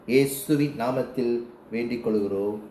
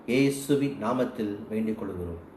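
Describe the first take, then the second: The two takes are said the same way.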